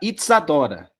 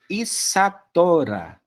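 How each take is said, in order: First: The middle consonant is a ts sound. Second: The middle consonant is a plain s sound. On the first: The name is spelled with a zeta. The speaker calls it wrong. "Eu não posso colocar o zeta lá, senão vai ficar Itzadora. Não é assim" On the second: The name is spelled with a sigma. The speaker calls it right. "Agora a Isadora tem que ser Isadora"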